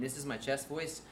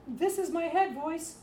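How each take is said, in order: First: Said in the usual way. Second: Very high, slow head voice. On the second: Shown as a demonstration. Teacher showing teachers head voice, high and slow. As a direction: float it up into a high, loud head voice.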